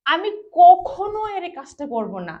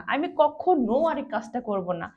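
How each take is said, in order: First: কখনো punched loud and high with a falling tune; emphatic. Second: Said in the usual way. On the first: Shown as a demonstration. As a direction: hit কখনো hard like a vow. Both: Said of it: "এখানে আমি জোর করে বলছি যে".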